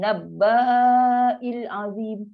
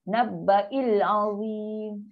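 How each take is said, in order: First: The vowel after b is drawn out long. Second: The vowel after b is short, then a glottal stop. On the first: The speaker calls it wrong. "Jangan macam nabba'il azim... Dia baca panjang" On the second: The speaker calls it right. "sedangkan ni bukan panjang. Asing"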